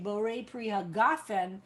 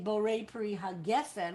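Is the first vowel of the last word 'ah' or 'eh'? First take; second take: ah; eh. First: The last word's first vowel sounds like 'ah'. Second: The last word's first vowel sounds like 'eh'. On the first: The speaker calls it right. "we say borei pri hagafen" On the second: The speaker calls it wrong. "we don't say borei pri hagefen"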